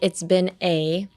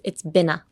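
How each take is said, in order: First: The final a is full and said separately. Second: The final a is a reduced uh, linked on. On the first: The speaker calls it wrong. "don't be like" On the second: The speaker calls it right. "Pronounce the a as a uh"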